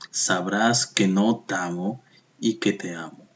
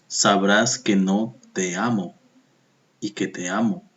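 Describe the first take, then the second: First: Vowels of neighbouring words are joined together. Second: Vowels of neighbouring words are said separately. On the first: The line counts eleven syllables. "aplicamos aquí sinalefa y unimos. ... Decimos" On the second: The line counts twelve syllables. "Ya no decimos"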